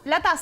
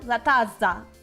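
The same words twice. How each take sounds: First: The z sound is short, like a single consonant. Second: The z sound is long and held, doubled. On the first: "That is literally how we say it" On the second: "pronounce the Z like a little bit better"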